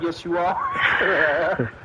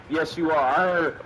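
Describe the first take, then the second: First: Laughing insistence. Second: Said in the usual way. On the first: Pretend. Friend insists Chris is an asshole, laughing and shouting. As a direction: push it through a laugh.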